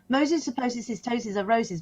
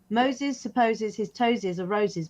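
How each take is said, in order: First: It is said at a faster pace. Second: It is said at a slower pace.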